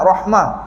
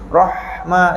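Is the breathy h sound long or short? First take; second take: short; long. First: The breathy h sound is cut short. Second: The breathy h sound is drawn out longer. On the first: The speaker calls it wrong. "Tak nak rahmah, tak cantik" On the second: The speaker calls it right. "Rahma lama kasi sikit dah"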